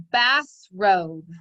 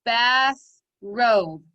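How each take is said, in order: First: Said in the usual way. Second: "Bathrobe" as two loud beats, bath, robe; two separated syllables. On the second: Shown as a demonstration. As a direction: pound out "Bathrobe" with a gap between syllables. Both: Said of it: "two syllables".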